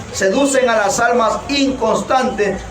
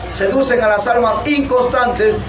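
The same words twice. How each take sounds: Both takes have the same delivery.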